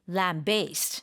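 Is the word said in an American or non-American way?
American. It is said the American way.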